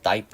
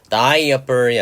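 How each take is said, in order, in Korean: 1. 중간 모음은 소리가 안 나요. 두 음절이에요. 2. 중간에 모음이 하나 더 있어요. 세 음절이에요. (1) "A는 소리 나지 않아서 다이퍼" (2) "다이어퍼이 아니라"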